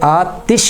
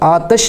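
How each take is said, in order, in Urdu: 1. t کے بعد i کی حرکت ہے۔ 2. t کے بعد i کی حرکت نہیں ہے۔ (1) "تا کے زیر کے ساتھ" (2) "یہ لفظ آتش نہیں ہوتا"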